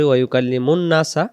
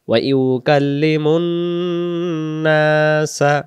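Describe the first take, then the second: First: The doubled n is clipped short without nasal hum. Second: The doubled n is held with a nasal hum. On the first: The speaker calls it wrong. "তখন এই তাসদিদের গুণনা বাদ যাবে" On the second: The speaker calls it right. "গুণনা করে আমাদেরকে পড়তে হবে"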